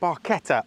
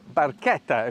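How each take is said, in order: First: It is said with an English-style pronunciation. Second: It is said with an Italian pronunciation.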